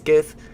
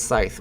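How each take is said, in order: First: The word begins with a hard k after s. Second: The word begins with a plain s sound. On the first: "he says Skith" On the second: "you don't pronounce the C"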